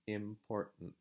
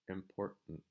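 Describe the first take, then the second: First: A glottal break replaces the T. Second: The same.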